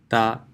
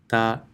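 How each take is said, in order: No difference in how they are said.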